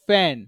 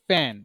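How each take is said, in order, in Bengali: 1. এটি নরম f শব্দ দিয়ে শুরু হয়। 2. এটি ফুঁ-দেওয়া p শব্দ দিয়ে শুরু হয়। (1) "দেখেন ফ্যান" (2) "নট ফ্যান"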